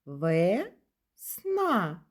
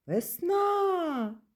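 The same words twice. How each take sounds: First: "Весна" slowly as Ве... сна, each syllable held apart; split into syllables. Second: "Весна-а" as a high, long call. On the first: Teacher has children count syllables in "Весна", split slowly. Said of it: "Слухайте". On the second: Teacher calls the word to find its stress, calling "Весна" out. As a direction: call "Весна" out, high and drawn-out on the last syllable. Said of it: "покличемо". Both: Shown as a demonstration.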